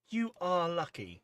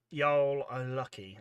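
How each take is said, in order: First: "You are" as two careful words, high and loud; separated "You are". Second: "y'all" as one drawn-out word, loud; contracted "y'all". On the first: Retold or imitated. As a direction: slowly spell out "You are" instead of contracting it. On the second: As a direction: read it slowly, running "y'all" into a single syllable. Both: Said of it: "try say that in your American accent".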